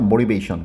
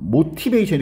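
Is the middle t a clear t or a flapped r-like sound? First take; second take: flapped r; clear t. First: The middle t is a soft, r-like flap. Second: The middle t is a clear, hard t. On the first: The speaker calls it right. "t를 갖다가 r처럼 발음하죠" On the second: The speaker calls it wrong. "이렇게 발음해야 되습니까?"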